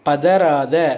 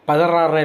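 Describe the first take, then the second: First: The last syllable has a 'th' sound. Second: The last syllable has an 'r' sound. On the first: The speaker calls it right. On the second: The speaker calls it wrong.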